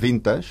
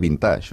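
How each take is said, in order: First: The stress is on the first syllable. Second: The stress is on the last syllable. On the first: The speaker learned it through English, a younger generation. "diuen vintage perquè l'han agafat de l'anglès" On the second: The speaker learned it through French, an older generation. "és una paraula aguda, claríssima"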